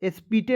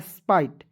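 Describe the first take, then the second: First: The vowel sounds like 'ee', final e voiced. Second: The vowel sounds like 'eye'. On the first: The speaker calls it wrong. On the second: The speaker calls it right.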